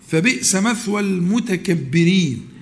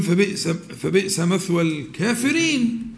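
First: Slow, stressing مثوى in "فبئس مثوى المتكبرين"; correct recitation. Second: Slow, stumbling "فبئس، فبئس" then ending on الكافرين; careless misquote. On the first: Teacher recites the verse correctly to students, slow and deliberate. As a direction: lean on مثوى and land المتكبرين with a falling close. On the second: Teacher mimics a student who hasn't memorized it, hesitant. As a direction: imitate someone misremembering the verse. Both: Shown as a demonstration. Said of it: "الواحد مش حافظ يقول".

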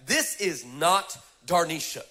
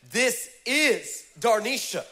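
First: Slow, leaning on the not; meant reply. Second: Slow, drawn out, stress on is; autocorrected reply. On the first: Preacher reading his intended text reply, slow and deliberate. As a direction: spell out the correction slowly. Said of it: "I meant to send back". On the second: Preacher reading the autocorrected text aloud, slow and drawn out. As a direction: drag out the wrong message for the laugh. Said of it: "the autocorrect on my phone sent back". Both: Shown as a demonstration.

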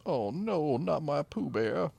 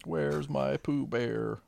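First: High, slow mock wail; mock grief. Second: Slow high mock wail. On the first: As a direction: wail over the lost dog. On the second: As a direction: drag out a sad wail.

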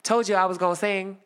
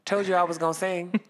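First: Louder, higher finger-pointing told you; taunting the principal with a point; pointed gloat. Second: Gloating told-you-so; smug victory line. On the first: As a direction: jab it at her triumphantly. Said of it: "hit her with one of those points". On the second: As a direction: rub it in the principal's face. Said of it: "I said". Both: Retold or imitated.

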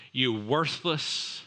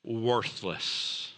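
First: Worthless drawn out slowly and weighted; stress on worthless. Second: Said in the usual way. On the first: Shown as a demonstration. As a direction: lean hard and slow into worthless.

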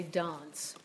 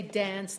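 First: "dance" with a broad ah, like "dahnce"; British "dance", open ah, drawn out; British long A. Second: Said in the usual way. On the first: Shown as a demonstration. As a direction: say "dance" with the vowel of father. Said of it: "they say dance". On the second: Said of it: "we say dance".

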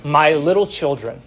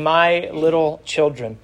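First: Said in the usual way. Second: Tender, endearing. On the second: Shown as a demonstration. Old apostle addressing his young flock, tenderly. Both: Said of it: "That's a very endearing term".

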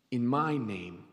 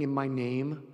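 First: MY drawn out and weighted, softer voice; stress on MY. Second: Said in the usual way. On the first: Shown as a demonstration. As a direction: lean slowly on "my" in a lowered voice. Repeats phrase to explain whose name.

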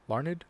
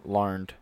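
First: "Larned" split into two syllables, LAR-ned, rising like a question; Larned two syllables, asking. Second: "Larned" said as one syllable, LARND, falling. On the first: Checking the author's name aloud, "Larned" as two syllables, questioning. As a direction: test "Larned" as LAR-ned with an unsure lift. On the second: Checking the author's name aloud, "Larned" as one syllable LARND. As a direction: settle on "Larned" as a single clipped syllable, LARND. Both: Real, not acted.

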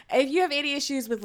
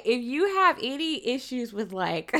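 First: Said in the usual way. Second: Giggling through the warning; can't hold back a laugh mid-sentence. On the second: Real, not acted. Warning viewers about disturbing scenes, laughing through it. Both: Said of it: "I shouldn't laugh".

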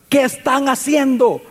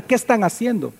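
First: A mild raised call across the distance, slow; calling from afar. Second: Said in the usual way. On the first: Acted. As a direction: call to them from far off. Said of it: "desde lejos les comienza a gritar". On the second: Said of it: "les pregunta".

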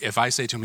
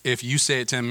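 First: I picked out as the contrast; stress on I. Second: YOU picked out as the contrast; stress on YOU. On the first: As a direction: lean on "I", rest of phrase light. Contrasts his praise with others'. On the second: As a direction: lean on "you", rest of phrase light. Contrasts others' praise with his own. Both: Shown as a demonstration.

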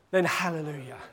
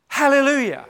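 First: Lower, softer, settled hallelujah; quiet hallelujah. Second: Higher, louder hallelujah of praise; joyful hallelujah. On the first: Preacher trusting God without healing, quiet. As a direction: let it land quietly in trust. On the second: Preacher praising God for a healing, joyful. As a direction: lift it up in rejoicing. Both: Acted.

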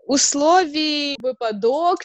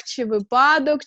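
First: Слові «випадок» said slowly, stressed on one syllable; slow quiz reading of «випадок». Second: «випадок» said with the stress moved to another syllable; alternative stress. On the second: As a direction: offer «випадок» as the second stress option. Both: Shown as a demonstration. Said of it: "як правильно наголос ставити".

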